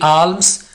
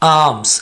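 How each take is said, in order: First: An L sound is pronounced in the word. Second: The L is silent in the word. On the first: The speaker calls it wrong. "आल्म्स नहीं होगा" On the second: The speaker calls it right. "एल को यहां पर silent रखना है"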